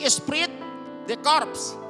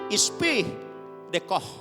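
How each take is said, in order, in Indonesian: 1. Dibaca huruf demi huruf sesuai tulisannya. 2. Diucapkan dengan cara Prancis, sebagian huruf tidak dibunyikan. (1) "Tulisannya seperti esprit de corps" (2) "kalau baca dalam bahasa Prancisnya adalah"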